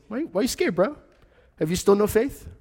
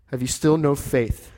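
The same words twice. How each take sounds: First: High-pitched, playful bro voice; teasing his friends lightly; casual Jesus. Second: Said in the usual way. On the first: Acted. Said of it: "And Jesus is like". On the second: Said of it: "repeated plainly".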